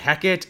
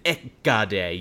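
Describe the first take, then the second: First: The word begins with an H sound. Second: The word begins without an H sound. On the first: "I say Hecate" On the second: "if you want to get really Greek with it, Ekade, you drop the H"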